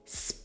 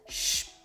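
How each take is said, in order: First: It begins with a plain s sound. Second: It begins with an sh sound. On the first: The speaker calls it wrong. "it'll never be sp" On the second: The speaker calls it right. "but shp"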